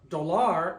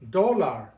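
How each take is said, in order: First: The stress is on the second syllable. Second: The stress is on the first syllable. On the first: The speaker calls it wrong. "it's not pronounced dollar" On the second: The speaker calls it right. "You're stressing the O"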